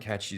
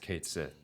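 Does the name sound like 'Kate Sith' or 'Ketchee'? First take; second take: Ketchee; Kate Sith. First: The name sounds like 'Ketchee'. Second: The name sounds like 'Kate Sith'. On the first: This is the original Irish-style pronunciation. "catchy is definitely the right way to say it. Technically" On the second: This is the pronunciation the game's makers chose. "there's a right way to say it, and it's Kate Sith"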